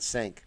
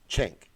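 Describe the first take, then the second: First: The name begins with an s sound. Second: The name begins with a ch sound. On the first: The speaker calls it wrong. "I know I've been saying it incorrectly forever" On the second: The speaker calls it right. "That's how you pronounce it?"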